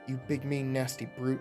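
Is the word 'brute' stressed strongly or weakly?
weakly. The word brute gets little extra stress.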